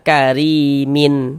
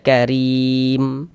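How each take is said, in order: First: The word ends with an added syllable after m. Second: The word ends on a bare, silenced m. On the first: The speaker calls it wrong. "Jangan dibaca karimin" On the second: The speaker calls it right. "tapi dibaca karim"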